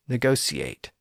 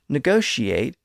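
First: The middle consonant is said as s. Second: The middle consonant is said as sh. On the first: This is the reverted pronunciation. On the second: This is the usual shifted pronunciation.

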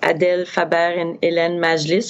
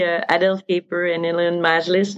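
First: The names are said with a French accent. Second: The names are said with an English accent. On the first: The speaker calls it wrong. "I'm probably pronouncing it too French" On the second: The speaker calls it right. "so it's probably"

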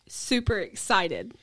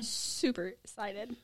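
First: It is said a little louder. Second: It is said more quietly.

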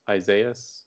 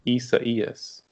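First: The name is said with English-style sounds. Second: The name is said with Spanish-style sounds. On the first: The speaker calls it wrong. "originally some of us thought it was" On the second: The speaker calls it right. "it's actually pronounced"

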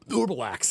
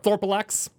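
First: It is said in a gurgly, burping voice. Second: It is said in a plain voice.

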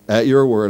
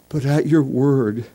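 First: It sounds reluctant and grudging. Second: It sounds reverent and devout.

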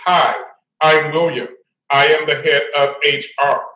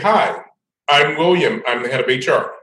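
First: It is said in a sarcastic tone. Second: It is said in a plain, friendly tone.

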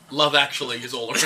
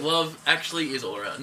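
First: It runs on with no pause after "Love". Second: There is a pause after "Love".

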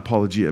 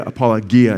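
First: The g is a soft j sound. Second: The g is a hard g sound. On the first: "and not apologia" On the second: "I want to say apologia"

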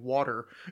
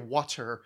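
First: The middle consonant sounds like a d. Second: The middle consonant sounds like a clear t. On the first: "there's a D sound to it" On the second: "unless you say water"

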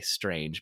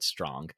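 First: The vowel sounds like the one in 'strange'. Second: The vowel sounds like the one in 'strong'. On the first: The speaker calls it wrong. "I always want to say Strange" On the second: The speaker calls it right. "it is supposed to be pronounced Lord Strong"

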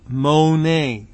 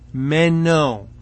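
First: The word sounds like mone, o before e. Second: The word sounds like meno, e before o. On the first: The speaker calls it wrong. "I've been pronouncing it mone, and again misplacing the vowels" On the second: The speaker calls it right. "should be pronounced meno"

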